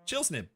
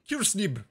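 First: The name begins with a ch sound. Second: The name begins with a hard k sound. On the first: The speaker calls it right. "That's how you say my Twitch ID" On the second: The speaker calls it wrong. "I love saying it that way"

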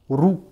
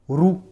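The two takes are said the same way.

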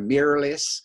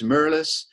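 First: It is said in an American accent. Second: It is said in a South African accent. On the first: "as they say in the States here" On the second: "If I say it with my South African accent"

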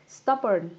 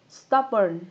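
Both takes have the same delivery.

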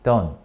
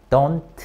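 First: The final T sound is dropped. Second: The final T sound is clearly pronounced. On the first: The speaker calls it right. "T 발음 안 합니다" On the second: The speaker calls it wrong. "don't 안 하고요"

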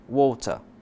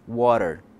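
First: British accent; the t is clearly pronounced. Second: American accent; the t sounds like a quick r. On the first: "na pronúncia britânica, o T é claramente pronunciado" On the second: "na pronúncia americana, o T se transforma em um R"

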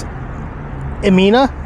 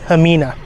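First: The name begins with a vowel sound. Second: The name begins with an h sound. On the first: The speaker calls it wrong. "I do believe the X is silent in Spanish" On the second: The speaker calls it right. "I asked Rose how you pronounce it"

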